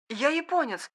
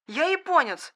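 First: «Я японец!» high and quiet, trembling. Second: «Я японец!» repeated high and trembling. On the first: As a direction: say «Я японец!» with a shaky, frightened high voice. («Я японец!» дрожащим голосом) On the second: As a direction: call out «Я японец!» again, scared and shaky. («Я японец!» дрожащим голосом, повторно) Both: Acted. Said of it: "дрожащим голосом произнёс".

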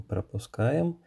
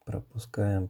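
First: Пропускаем sung upward, higher at end; пропускаем with playful high rise; rising tune on пропускаем. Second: Said in the usual way. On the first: Real, not acted. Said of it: "repeated word, rising". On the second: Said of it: "repeated word, falling".

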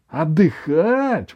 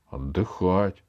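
First: High, stretched-out outraged echo; indignant. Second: Said in the usual way. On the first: A narrator's reading. Grandmother told by grandson to rest, indignant. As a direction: repeat «Отдыхать» slowly in rising outrage. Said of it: "возмутилась бабушка".

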